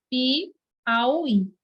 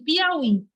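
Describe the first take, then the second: First: "Piauí" slowly broken as Pi, auí; split by syllables. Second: Said in the usual way. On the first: Shown as a demonstration. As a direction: say "Piauí" in separate, stretched parts. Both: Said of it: "Como é que se separa essa palavra?".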